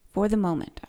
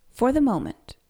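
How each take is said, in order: First: Said in the usual way. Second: "for the moment" pushed higher and louder on the first take; lifted emphasis. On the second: Retold or imitated. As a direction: lean into "for the moment" the first time. Repeats phrase, first take lifted.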